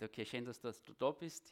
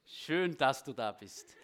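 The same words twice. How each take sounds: First: Said in the usual way. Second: Louder, emphatic welcome to the newcomer. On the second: Real, not acted. To David from Köln, louder emphatic welcome. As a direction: say it again with more volume, beaming.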